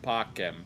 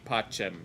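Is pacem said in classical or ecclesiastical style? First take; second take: classical; ecclesiastical. First: The C is said the classical way. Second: The C is said the ecclesiastical way. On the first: "he pronounced the C correctly. It's pacem" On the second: "in ecclesiastical pronunciation, this would be pacem"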